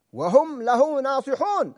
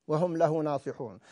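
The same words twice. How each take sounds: First: وهم له ناصحون drawn out slowly, with ناصحون held long and falling; preacher lingers on ناصحون to drive the point home; slow stress on ناصحون. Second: Said in the usual way. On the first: Shown as a demonstration. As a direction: weigh every word, leaning hard on ناصحون. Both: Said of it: "هكذا يجب من يكفل يتيما".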